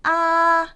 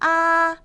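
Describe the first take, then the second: First: The pitch stays high and level throughout. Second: The same.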